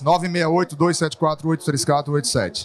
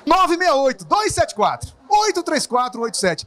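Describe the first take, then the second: First: The numbers are read in a flat, monotone voice. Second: The numbers are read in a varied, lively voice. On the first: The speaker calls it wrong. "antes da Vox" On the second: The speaker calls it right. "Depois da Vox"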